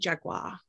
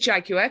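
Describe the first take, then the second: First: Jaguar is said the guest's non-British way. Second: Jaguar is said the British way.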